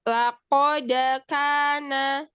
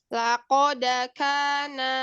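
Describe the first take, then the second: Both takes have the same delivery.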